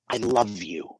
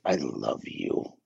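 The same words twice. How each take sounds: First: Soft, tender "I love you"; loving tone. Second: "I love you" said much lower, slow and soft, cold and flat; a grudging, deadpan delivery. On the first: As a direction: say "I love you" gently, meaning it. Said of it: "the tone of our voice". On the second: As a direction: drop "I love you" low and slow, dismissive. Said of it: "two totally different meanings". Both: Shown as a demonstration.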